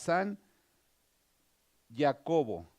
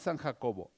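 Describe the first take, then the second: First: The name begins with a soft y sound. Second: The name begins with a harsh throaty sound. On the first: The speaker calls it right. "sería más apropiado usar una Y" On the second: The speaker calls it wrong. "no a San Jacobo"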